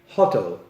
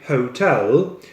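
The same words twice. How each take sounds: First: The stress is on the first syllable. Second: The stress is on the second syllable. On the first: The speaker calls it wrong. "They say hotel, like in Polish language" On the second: The speaker calls it right. "with the stress on the second syllable, not first"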